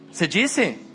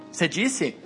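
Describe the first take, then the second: No difference in how they are said.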